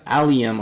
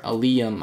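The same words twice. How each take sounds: First: Allium as AL-ee-um; first-syllable stress. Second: Allium as uh-LEE-um; second-syllable stress. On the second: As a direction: shift the stress in allium onto a long LEE. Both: Shown as a demonstration. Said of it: "I'm pretty sure it's allium".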